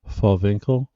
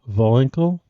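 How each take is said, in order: First: The name begins with an F sound. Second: The name begins with a V sound.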